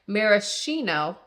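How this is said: The word is given an American pronunciation. "maraschino is the way you pronounce it in America"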